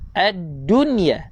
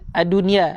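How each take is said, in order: First: The doubled consonant is held long. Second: The consonant is said single, not held. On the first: The speaker calls it right. "jaga sabdu" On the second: The speaker calls it wrong. "Jangan ad-dunya"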